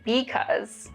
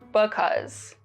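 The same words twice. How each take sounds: First: The first vowel is full and clear. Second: The first vowel is reduced and weak. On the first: "I say" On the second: "someone who would reduce the vowel would say"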